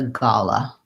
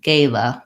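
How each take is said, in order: First: The word is said with a British English vowel. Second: The word is said with an American English vowel. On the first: "And for British English, it has the gala" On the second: "the gala pronunciation for American English"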